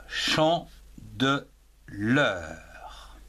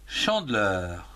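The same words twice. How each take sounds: First: "chant de l'heure" said very slowly, syllable by syllable; teacher slowly splitting "chant de l'heure" into three syllables for dictation; split into syllables. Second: Said in the usual way. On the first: Shown as a demonstration. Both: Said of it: "en trois syllabes".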